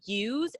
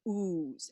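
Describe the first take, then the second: First: A y sound comes before the oo vowel. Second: No y sound comes before the oo vowel. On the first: "instead of use" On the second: "Drop the Y sound before the long U"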